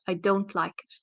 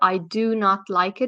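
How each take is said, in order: First: Do and not are merged into one syllable. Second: Both words do and not are said fully. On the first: The speaker calls it right. "it becomes I don't like it" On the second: The speaker calls it wrong. "instead of I do not like it"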